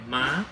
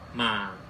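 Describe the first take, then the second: First: The pitch rises from mid to high. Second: The pitch starts low and falls lower. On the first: "上升的符号，就是跟二声中文的二声很像" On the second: "下降符号，跟三声很像"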